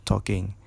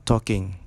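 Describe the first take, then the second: The two takes are said the same way.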